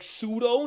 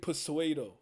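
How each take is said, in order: First: It is said as two plain syllables. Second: It is said with an extra inserted syllable. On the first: This is the speaker's correction. The speaker calls it right. "I'm like pseudo" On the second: This imitates how a friend mispronounced it. The speaker calls it wrong. "said fucking persuado"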